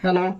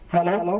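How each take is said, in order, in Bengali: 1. ভয়েসে একদমই কোনো ইকো নেই। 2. ভয়েসে হালকা, কম ইকো আছে। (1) "এখন কোনো ইকো নেই" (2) "এই যে আমি ইকোটাকে কমাই দিলাম।"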